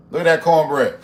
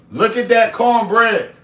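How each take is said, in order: First: Said in the usual way. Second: Louder, higher, slower Look at that cornbread; excited exclaiming. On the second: Real, not acted. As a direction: show off the cornbread with delight. Second take louder higher.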